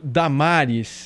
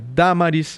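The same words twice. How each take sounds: First: The stress is not on the first syllable. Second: The stress is on the first syllable. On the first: The speaker calls it wrong. "Errei aqui a pronúncia" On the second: The speaker calls it right. "tem um acento no da"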